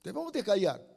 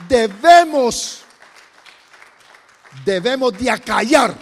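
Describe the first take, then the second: First: Said in the usual way. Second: Preaching at full force. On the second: Real, not acted. Pastor urging the congregation to silence fear, loud forceful preaching. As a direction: hammer out debemos de acallar.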